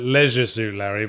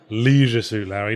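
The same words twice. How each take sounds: First: The first vowel of leisure is short. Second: The first vowel of leisure is long. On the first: The speaker calls it right. "I persistently call it" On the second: The speaker calls it wrong. "the original American pronunciation"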